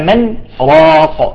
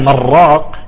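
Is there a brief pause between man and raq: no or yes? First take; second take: yes; no. First: A brief pause separates man from raq. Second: The two words run together without pause. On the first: It asks who will heal him. The speaker calls it right. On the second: It sounds like an intensive form from straying. The speaker calls it wrong.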